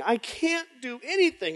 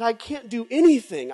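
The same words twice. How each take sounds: First: Voice breaking into a cry. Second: Said in the usual way. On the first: Retold or imitated. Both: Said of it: "I said".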